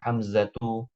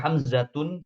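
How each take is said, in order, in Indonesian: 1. Nama itu diakhiri vokal, tanpa n. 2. Nama itu diakhiri bunyi n tambahan. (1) "Yang benar tanpa ham, tanpa tanwin" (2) "Kalau antum nulisnya Hamzatun salah"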